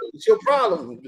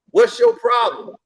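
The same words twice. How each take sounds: First: Lower, restrained challenge; acted-out confrontation, pitched down; retold stern demand. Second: High-pitched, slow challenge; acted-out confrontation, high and slow; retold confrontational demand. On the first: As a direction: repeat it low, without raising the volume. Retold confrontation, question repeated lower. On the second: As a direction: draw out the question, pitched up. Retold confrontation, question said twice.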